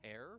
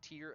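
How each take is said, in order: First: The vowel rhymes with 'air'. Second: The vowel rhymes with 'ear'. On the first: A rip, like an omen of the apocalypse. The speaker calls it wrong. "and not tear" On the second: A teardrop from crying. The speaker calls it right. "it was tear"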